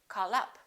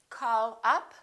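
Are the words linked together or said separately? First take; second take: linked; separately. First: The words are linked smoothly together. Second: The words are said separately, not linked.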